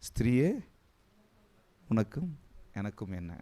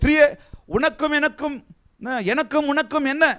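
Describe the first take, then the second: First: It is said in a soft, gentle tone. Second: It is said in a harsh, blunt tone. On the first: It sounds like a gentle explanation. The speaker calls it right. "இதே சாஃப்டா சொல்லுங்க" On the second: It sounds like a rude rebuke. The speaker calls it wrong. "குறை சொல்றவங்க சொல்லுவாங்க"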